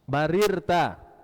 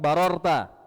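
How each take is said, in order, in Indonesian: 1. Vokal kedua terdengar seperti 'i'. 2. Vokal kedua terdengar seperti 'o'. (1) "barirta. Jangan keliru" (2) "bunyinya bukan barorta"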